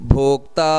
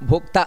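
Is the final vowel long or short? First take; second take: long; short. First: The final vowel is drawn out long. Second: The final vowel is cut short. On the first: The speaker calls it right. "ಅಂತ ದೀರ್ಘ ಬರಬೇಕು" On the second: The speaker calls it wrong. "ಅಷ್ಟಕ್ಕೆ ನಿಲ್ಲಿಸುವುದಲ್ಲ"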